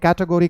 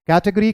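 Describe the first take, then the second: First: It is said with an American accent. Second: It is said with a British accent.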